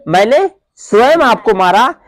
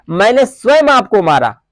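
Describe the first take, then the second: First: मैंने hit first and rising; stress on मैंने. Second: स्वयं falls as the peak word; stress on स्वयं. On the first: Teacher showing students an emphatic pronoun, stress on मैंने. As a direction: punch मैंने to show who did it. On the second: Teacher showing students an emphatic pronoun, stress on स्वयं. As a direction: lean on स्वयं, not on मैंने. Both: Shown as a demonstration. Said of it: "इस पर बल दिया जा रहा है".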